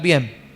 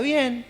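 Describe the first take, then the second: First: It sounds annoyed and upset. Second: It sounds content and relaxed.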